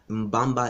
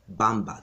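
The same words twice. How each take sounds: First: "Mbamba" with a hummed M before the b; original pronunciation. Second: "Bamba" starting straight on the b; Portuguese pronunciation. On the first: Explaining the province's name, "Mbamba" with the M sounded. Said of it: "Mbamba is also pronounced Bamba". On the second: Explaining the Portuguese form, "Bamba" with no opening M. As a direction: drop the M from the front of "Bamba". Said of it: "They drop the M". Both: Shown as a demonstration.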